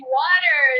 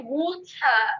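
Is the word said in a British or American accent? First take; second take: American; British. First: It is said in an American accent. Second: It is said in a British accent.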